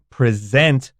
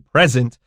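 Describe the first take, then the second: First: The stress is on the second syllable. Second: The stress is on the first syllable. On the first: It is the verb. The speaker calls it right. "this present stresses the second syllable. This is the verb" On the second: It is the noun. The speaker calls it wrong. "We don't say present"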